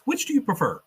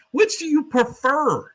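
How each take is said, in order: First: Higher, prim question; Peggy's plain first asking; quoting Peggy. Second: Much higher, slow, louder and drawn out; Peggy's hammed-up loaded question; pointed repeat. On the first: Retold or imitated. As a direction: ask it like a nosy reporter. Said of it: "she goes". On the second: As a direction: lean in and milk every word. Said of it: "And gives him the".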